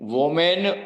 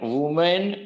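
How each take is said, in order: First: The first syllable has an 'o' vowel. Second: The first syllable has an 'u' vowel. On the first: "વોમેન વુમેન કઈ જ નહીં" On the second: "વોમેન વુમેન કઈ જ નહીં"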